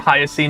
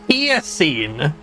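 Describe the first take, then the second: First: The name is said with English-style sounds. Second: The name is said with Japanese-style sounds. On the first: "It must be Hyacine in English" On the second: "is how they pronounce it in Japanese"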